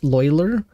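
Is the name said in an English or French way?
English. The name is said with an English pronunciation. "Would that be the English pronunciation of it?"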